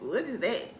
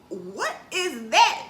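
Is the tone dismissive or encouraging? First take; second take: dismissive; encouraging. First: It sounds dismissive and puzzled. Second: It sounds warm and encouraging. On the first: The dance makes no sense to the parent. The speaker calls it wrong. "Don't say what is that" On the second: The parent is curious and supportive. The speaker calls it right. "be encouraging"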